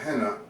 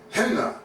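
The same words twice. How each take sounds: First: It begins with a plain soft h sound. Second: It begins with a hard, harsh H sound. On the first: The speaker calls it wrong. "not henna" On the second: The speaker calls it right. "that's a hard H"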